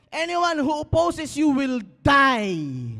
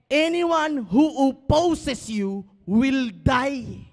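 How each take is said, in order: First: Very slow, loud, high proclamation; solemn declaration. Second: Even slower, loud, drawn-out proclamation; slower declaration. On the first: Pastor declaring victory over enemies, slow and loud. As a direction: proclaim each word. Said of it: "verse declared slowly". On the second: Pastor repeating the verse so they finally understand, drawn out. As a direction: drag out every word with force. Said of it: "you don't understand". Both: Acted.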